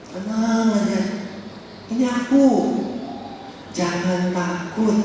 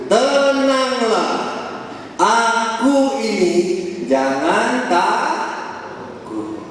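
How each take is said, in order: First: Said in the usual way. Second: Very slow, drawn-out calming words; slow reassurance. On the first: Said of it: "paraphrase plain". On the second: Acted. Jesus calms the terrified disciples on the lake, slowly and gently. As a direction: say it slowly to calm frightened men. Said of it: "ia berkata kepada mereka".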